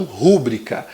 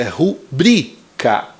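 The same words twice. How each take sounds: First: Rúbrica stressed on the first syllable, RU-bri-ca; wrong pronunciation. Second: Rubrica stressed on bri, ru-BRI-ca, slowly; correct pronunciation. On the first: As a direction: show the mistake: rúbrica with the stress on ru. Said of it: "não rúbrica". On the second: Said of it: "a sílaba tônica é bri". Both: Shown as a demonstration.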